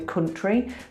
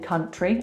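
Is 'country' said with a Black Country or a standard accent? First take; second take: Black Country; standard. First: It is said with a Black Country accent. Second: It is said with a more standard English accent. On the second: "I don't say country"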